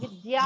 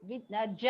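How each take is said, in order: First: A 'y' sound follows the 'd'. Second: A 'j' sound follows the 'd'. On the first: The speaker calls it right. "దాలో యా రాదు" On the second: The speaker calls it wrong. "జకారం రాకూడదు"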